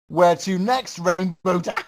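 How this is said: The voice ends in a cackling laugh.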